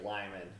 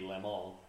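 First: The name is said with an English pronunciation. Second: The name is said with a Spanish pronunciation. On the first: "just like Lyman" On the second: "should be Limon ... if you pronounce it the way the Spanish do"

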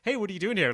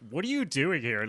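First: It sounds like a casual, friendly greeting. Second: It sounds accusing, meaning you shouldn't be here.

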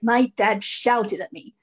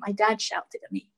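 First: The words are said with anger in the voice. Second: The words are said in a calm, even voice. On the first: The emotion is still present. "you might start out with like some anger in your voice" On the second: The emotion has been let go. "you'll just be just saying things calmly"

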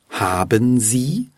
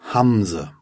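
First: Both words are pronounced fully and separately. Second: The two words merge into one short word. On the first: "aus haben Sie" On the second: "wird schon mal aus haben Sie einfach Hamse"

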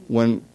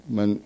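Both takes have the same delivery.

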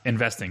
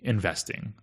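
First: The word is stressed in the usual way. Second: The word is stressed in an unusual way. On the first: The speaker calls it right. "I want to say it again to make it less like investing" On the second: The speaker calls it wrong. "I've put a weird emphasis on that one"

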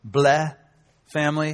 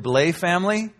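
First: The surname is said with a Quebec French pronunciation. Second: The surname is said with an English pronunciation. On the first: "That's how they pronounce it in Quebec" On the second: "however you want to say it"

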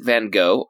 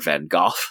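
First: The name is pronounced the American way. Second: The name is pronounced the British way.

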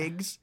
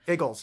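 First: The word is clipped to a short 'Iggs'. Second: The word is said in full as 'Eagles'. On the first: The speaker calls it wrong. "Am I pronouncing it right?" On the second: The speaker calls it right. "No, it's Eagles"

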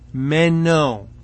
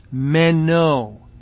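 First: The word sounds like meno, e before o. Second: The same.

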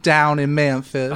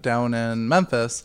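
First: It is said in a put-on Southern drawl. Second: It is said in the speaker's ordinary accent.

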